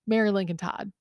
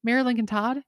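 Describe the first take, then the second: First: Said in the usual way. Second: "Mary Lincoln Todd" with a questioning rise. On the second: Real, not acted. Trying the name out as question.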